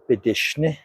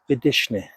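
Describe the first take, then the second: First: The tone pattern is reversed, ending on high. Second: The first two syllables are high, the last low. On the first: I'm telling him or her. "If you flip it around and say bidishne" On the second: I'm petting it. "this word has two I's with a high tone. The last one doesn't"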